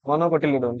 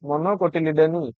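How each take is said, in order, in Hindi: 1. शब्द आखिरी 'n' व्यंजन पर खत्म होता है। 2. शब्द एक अतिरिक्त लंबे 'ee' स्वर पर खत्म होता है। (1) "ये वाला हो जाएगा आपका प्रोनाउंसिएशन" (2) "ये जो लंबा हो गया कि मोनोकोटिलिडोनी, ये नहीं"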